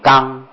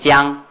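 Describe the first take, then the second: First: The word starts with a hard g sound. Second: The word starts with a j sound. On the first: This is the old Tang-era pronunciation. "古汉音唐朝就念刚" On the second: This is the modern standard pronunciation. "江是波波摩佛才念江"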